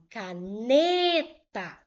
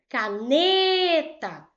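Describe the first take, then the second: First: The word is said at a plain speaking level. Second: The word is called out like someone's name. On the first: "Eu falo caneta" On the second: "Vou chamar o nome caneta"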